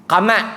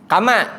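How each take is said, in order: No difference in how they are said.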